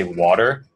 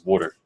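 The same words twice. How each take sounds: First: Said in the usual way. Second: Jersey accent, "water" said as "wawter"; New Jersey "water", with an "aw" in it. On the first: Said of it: "the way that you say water". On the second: Shown as a demonstration. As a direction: say "water" like a New Jersey native, rounded first vowel. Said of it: "in New Jersey is water".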